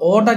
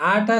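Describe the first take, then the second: First: ଅଟା said with the short Odia vowel ଅ; ଅଟା with a short first vowel, set against ଆଟା; short a sound. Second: ଆଟା said with the long open vowel ଆ; ଆଟା with a long first vowel, set against ଅଟା; long aa sound. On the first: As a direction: open with a short ଅ in ଅଟା, not ଆ. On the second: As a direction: stretch the ଆ at the start of ଆଟା. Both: Shown as a demonstration. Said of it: "ଅଲଗା ଉଚ୍ଚାରଣ କରୁଛନ୍ତି".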